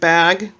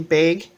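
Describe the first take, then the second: First: It is said in a general American way. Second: It is said in a Washington-state way. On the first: This is how the rest of the country says it. "instead of bag" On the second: This is how locals in Washington say it. "we tend to say bag"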